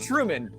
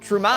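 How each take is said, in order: First: The stress is on the first syllable. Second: The stress is on the second syllable. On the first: "like Truman" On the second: "but the emphasis is on man"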